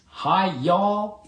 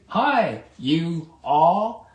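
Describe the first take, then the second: First: The two words are merged into one syllable. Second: The two words are pronounced clearly and separately. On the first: The whole group is greeted as one. "I always like that Southern dialect" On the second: Each person in the group is greeted separately. "Enunciate both words clearly"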